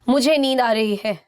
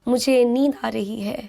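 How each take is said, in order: First: It is said in a rude, impolite tone. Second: It is said in a polite, gentle tone. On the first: The speaker calls it wrong. "Rather than saying" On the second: The speaker calls it right. "try to keep your expressions polite"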